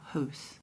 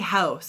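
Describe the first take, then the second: First: The vowel is said with a small mouth. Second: The vowel is said with a wide-open mouth.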